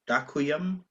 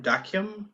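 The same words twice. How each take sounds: First: Dakium in three syllables, DAH-koo-yum, rising; tentative pronunciation. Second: Dakium as two syllables, DAHK-yum; tentative pronunciation. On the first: Host retrying Slovak thanks for listeners, questioning DAH-koo-yum for "Dakium". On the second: Host attempting Slovak thanks for listeners, tentative DAHK-yum for "Dakium". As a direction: try "Dakium" quickly as DAHK-yum, pitched up. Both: Shown as a demonstration. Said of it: "probably gonna say it incorrectly".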